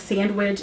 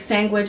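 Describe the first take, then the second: First: The word is said in its full, careful form. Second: The word is said in a reduced, easier form. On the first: "It just takes more effort" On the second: "or like sandwich"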